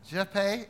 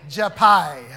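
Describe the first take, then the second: First: "Jepe" ending in an ay sound, questioning; tentative name pronunciation. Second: "Jepai" ending in an eye sound, louder; corrected name pronunciation. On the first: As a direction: say "Jepe" as zheh-PAY, rising. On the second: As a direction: say "Jepai" loudly as juh-PIE. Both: Shown as a demonstration. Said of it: "How's it pronounced?".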